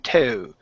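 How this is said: The vowel sounds British, with a pressed-down tongue. The speaker calls it wrong. "You're digging your tongue too far down in your mouth"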